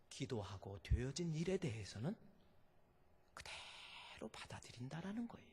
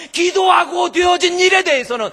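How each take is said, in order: First: Hushed. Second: Much louder and higher, every syllable hit; shouted. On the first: Preacher quietly leaning in to the congregation, hushed. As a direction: drop to a near whisper, much softer. Sudden drop after shouting. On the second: Preacher roaring the lesson at the congregation, shouting. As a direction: bellow it out with full force. Same line, now shouted. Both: Acted.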